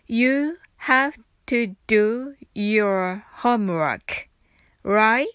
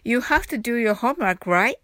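First: The sentence is spoken slowly. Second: The sentence is spoken quickly. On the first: "はじめはゆっくりです。" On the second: "次に早く言ってみましょう。"

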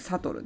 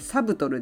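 First: No B sound is pronounced in the middle. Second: A B sound is pronounced in the middle. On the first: The speaker calls it right. "発音しないB なので" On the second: The speaker calls it wrong. "サブトルではなく"

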